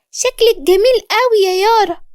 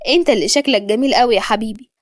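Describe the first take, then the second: First: Put-on very high little-boy voice; high, delighted kid with a smile; smiling child. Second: Mild fondness at a natural pitch; a touch of tenderness; loving. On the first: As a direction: pay a sweet compliment like a small child. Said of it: "دخل علي وقال بابتسامة". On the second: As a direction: affectionately return the compliment to a child. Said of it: "قربت منه وقلت له بحب". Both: A narrator's reading.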